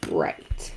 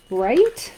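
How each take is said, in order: First: Deep mock answer. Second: Said in the usual way. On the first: Crafter answering her own question in a low mock voice. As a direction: drop way lower for a gruff self-reply.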